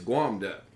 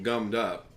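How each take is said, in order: First: The vowel is a drawn-out 'waw' sound. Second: The vowel is a short plain 'uh' sound. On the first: "the mountain people say it gets guamed up" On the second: "the expression gummed up"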